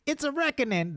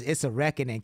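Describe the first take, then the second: First: High squeaky Cat Williams impression. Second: Said in the usual way. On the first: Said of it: "The Cat Williams voice". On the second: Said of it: "Cat Williams".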